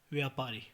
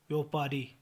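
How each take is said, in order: First: Said in the usual way. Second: व्यापारी with o in the first syllable; mispronunciation. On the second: Shown as a demonstration. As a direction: say vyo-paari for व्यापारी. (व्यापारी को व्योपारी बोलें) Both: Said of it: "व्यापारी नहीं".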